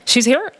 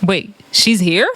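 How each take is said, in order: First: Higher-pitched questioning echo; mock copycat surprise; parroting echo. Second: Slow, questioning disbelief; drawn-out mock surprise; surprised host. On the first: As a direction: repeat it like a mocking parrot of the host. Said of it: "Zoe is a parrot". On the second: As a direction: imitate a host slowly taking in news. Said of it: "She's like".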